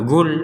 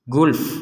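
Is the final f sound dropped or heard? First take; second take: dropped; heard. First: The word ends on l with no final f. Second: The word ends with a clear final f. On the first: The speaker calls it wrong. "jangan sampai lam saja" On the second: The speaker calls it right. "tetap memiliki hak untuk dibaca"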